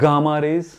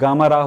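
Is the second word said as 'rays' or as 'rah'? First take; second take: rays; rah. First: The second word ends with a full 'rays' sound. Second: The second word ends with a short 'rah' sound. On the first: The speaker calls it right. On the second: The speaker calls it wrong.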